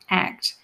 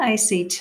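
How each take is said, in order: First: It is said as one word, like act. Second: It is spelled out as three separate letters. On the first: The speaker calls it right. "he likes the word ACT because it implies action" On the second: The speaker calls it wrong. "Not ACT, apparently"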